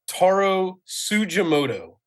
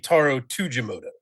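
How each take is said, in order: First: The surname starts with a ts sound. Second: The surname starts with a plain t sound. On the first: This is the pronunciation the speaker was told to use. "I say Tsujimoto like tsunami" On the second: This is how most people involved in the story said it. "the vast majority of people involved in the story say"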